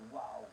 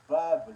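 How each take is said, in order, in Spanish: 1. El nombre empieza y termina con sonido de W. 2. El nombre empieza y termina con sonido de B. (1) "no wow" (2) "la letra se llama Bab"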